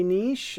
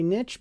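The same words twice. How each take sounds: First: Niche as neesh, like the British. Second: Niche said nitch, short i and tch; niche as nitch, like Americans. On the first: Teacher demos British niche, neesh with a long ee. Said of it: "British say niche". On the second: Teacher demos American niche, nitch with short i. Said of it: "Americans say niche". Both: Shown as a demonstration.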